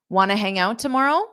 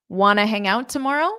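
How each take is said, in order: No difference in how they are said.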